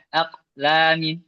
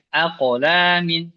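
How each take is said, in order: First: The q sound is cut off without echo. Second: The q sound is released with an echo. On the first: The speaker calls it wrong. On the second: The speaker calls it right.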